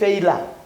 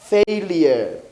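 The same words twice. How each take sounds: First: The ending does not sound like 'year'. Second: The ending sounds like the word 'year'. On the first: The speaker calls it wrong. "Don't say failure" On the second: The speaker calls it right. "This is year"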